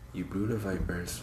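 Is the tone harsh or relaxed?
relaxed. It is said in a relaxed, chill tone.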